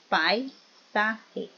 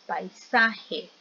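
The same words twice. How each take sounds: First: "paisaje" broken into pai, sa, je; syllable split. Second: Said in the usual way. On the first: Shown as a demonstration. Teacher splits word to show diphthong. ("paisaje" separado en sílabas: pai, sa, je)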